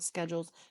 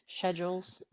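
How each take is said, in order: First: It begins with a 'sk' sound. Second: It begins with a 'sh' sound.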